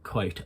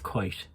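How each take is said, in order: First: The final T is soft and breathy. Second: The final T is soft and breathy.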